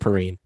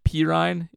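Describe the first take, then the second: First: The last syllable does not rhyme with rind. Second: The last syllable rhymes with rind. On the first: The speaker calls it wrong. "I've been saying Perine" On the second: The speaker calls it right. "if your last name is pronounced Perine"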